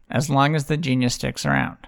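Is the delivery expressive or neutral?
neutral. It is said with flat, even inflection. The reader simply reports the text. The speaker calls it right. "Let me do that again"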